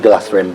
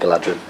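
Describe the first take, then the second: First: The middle consonant is a soft th sound. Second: The middle consonant is a hard d sound. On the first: The speaker calls it right. "supposed to be Galathrim" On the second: The speaker calls it wrong. "most people say Galadrim. Wrongly"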